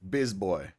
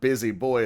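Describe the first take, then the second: First: The first word is cut to one short syllable. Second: The first word is said with two full syllables. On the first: "they don't say every letter in the word" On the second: "instead of busy boy"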